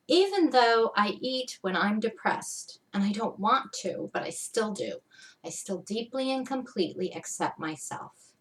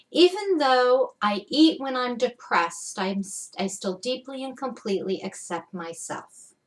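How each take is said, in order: First: Said in the usual way. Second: Deliberate emphasis on "Even" and "deeply"; emphatic setup phrase. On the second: Shown as a demonstration. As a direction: press the words of the affirmation with conviction. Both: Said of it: "I did use a lot of emphasis".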